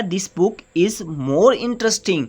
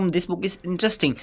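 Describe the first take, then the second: First: More said with the main stress of the sentence. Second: Said in the usual way. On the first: Shown as a demonstration. Teacher showing students the added word, with more stressed. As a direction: lean on more to show the adverb. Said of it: "हमने कहा है this book is more interesting". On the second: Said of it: "more नहीं लगाते".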